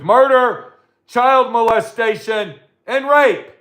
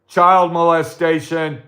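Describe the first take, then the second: First: Rising outrage. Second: Said in the usual way. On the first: Real, not acted. Ranting host repeats the crimes, rising to an outraged peak. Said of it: "repeats list, escalating". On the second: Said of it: "listing crimes, first time".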